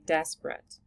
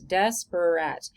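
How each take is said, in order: First: The word is said with only two syllables. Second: The word is said with three full syllables. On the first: "We just say desperate" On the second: "It's actually three syllables"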